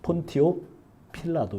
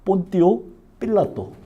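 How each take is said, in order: First: The name is said with an English-style pronunciation. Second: The name is said with a Latin-style pronunciation. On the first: "영어 발음은 이제 폰티오 필라도 이렇게 돼 있죠" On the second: "정확한 발음에"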